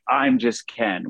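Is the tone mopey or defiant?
defiant. It is said in a proud, defiant tone.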